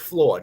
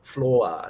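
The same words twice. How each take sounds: First: The vowels flow together into one syllable. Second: The vowels are split into two syllables. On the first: The speaker calls it right. "it's floor" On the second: The speaker calls it wrong. "not floor"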